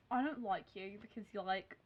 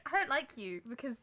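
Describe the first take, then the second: First: Put-on softer, mean-girl Australian twang; accidental Australian accent. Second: Put-on corrected non-Australian accent. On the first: Playing Delancey telling Blair off, Australian accent. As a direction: play the rival with an Australian twang. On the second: Replaying Delancey after being teased, without Australian accent. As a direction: redo the rival, dropping the Australian accent. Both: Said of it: "She's not Australian".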